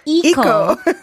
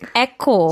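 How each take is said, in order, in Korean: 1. 이 단어는 'ee' 소리로 시작합니다. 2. 이 단어는 'eh' 소리로 시작합니다. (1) "It's not eco" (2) "It is eco"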